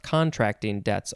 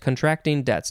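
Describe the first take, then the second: First: The stress falls on the first syllable, con. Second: The stress falls on the second syllable, tract. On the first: The speaker calls it wrong. "not contracting debts, although maybe that would be possible too" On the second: The speaker calls it right. "I think that is the right way to say it"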